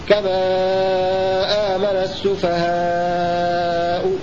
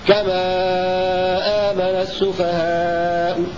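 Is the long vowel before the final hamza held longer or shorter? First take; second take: longer; shorter. First: The long vowel is held for five beats. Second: The long vowel is held for four beats. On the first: "أو فويق التوسط بمقدار خمس حركات" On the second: "الروم مع التوسط بمقدار أربع حركات"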